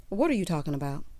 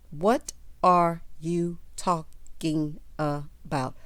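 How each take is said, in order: First: Said in the usual way. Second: Stretched out, every word dragged in disbelief; slow, drawn-out incredulous question. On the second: Real, not acted. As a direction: draw out What are you talking about? slowly, baffled.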